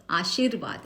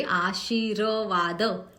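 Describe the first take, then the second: First: Said in the usual way. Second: आशीर्वाद drawn out slowly, each syllable apart, r taken down first; slow teaching demo of आशीर्वाद. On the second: Shown as a demonstration. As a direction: spell out आशीर्वाद slowly with the r sounded. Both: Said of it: "इस तरह से हम उसको उच्चारण करेंगे".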